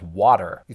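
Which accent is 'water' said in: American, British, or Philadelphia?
American. It is said with a general American pronunciation. "what they pronounce as water"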